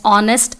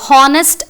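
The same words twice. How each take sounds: First: The word starts with no h sound. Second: The word starts with an h sound. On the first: The speaker calls it right. "H as silent" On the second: The speaker calls it wrong. "wrong pronunciation"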